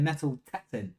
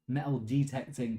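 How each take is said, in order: First: It is said fast, dropping the syllable 'de'. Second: It is said in full, with every syllable.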